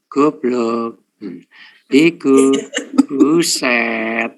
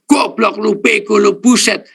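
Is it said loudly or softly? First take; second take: softly; loudly. First: It is said softly. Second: It is shouted loudly.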